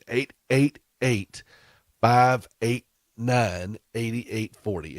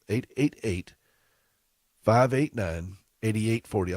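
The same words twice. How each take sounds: First: The number is read more slowly. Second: The number is read at normal speed.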